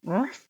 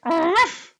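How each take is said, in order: First: Soft half-hearted bark; a quiet, failed little ruff; weak dog ruff. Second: High yappy little ruff; little dog ruff. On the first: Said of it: "That wasn't good". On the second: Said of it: "Well, it's more like". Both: Shown as a demonstration.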